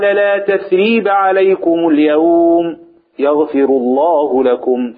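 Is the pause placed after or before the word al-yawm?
after. The pause comes right after al-yawm. There is no blame on them today. "ومرة وقفنا على اليوم"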